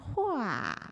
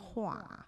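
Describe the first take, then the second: First: The vowel is said with the lips spread wide. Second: The vowel is said plainly, as in standard speech. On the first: The speaker calls it right. "你要发成花，把嘴咧回来" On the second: The speaker calls it wrong. "你不能发成这个花"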